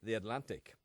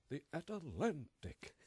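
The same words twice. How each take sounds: First: The pitch stays fairly level through the word. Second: The pitch goes up and down through the word. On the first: This is the speaker's own usual way. "we would say the Atlantic" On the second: This imitates another person's way of speaking. "He would say the Atlantic. No, he goes up and down"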